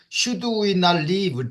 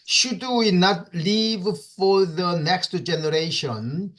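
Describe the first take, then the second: First: Slow, with stress on we; teacher showing the emphasis; emphatic question. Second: Said in the usual way. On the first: Shown as a demonstration. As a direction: lean on "we" in "Should we not leave?" to stress it. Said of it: "emphasis, more like, uh, emphasizing this".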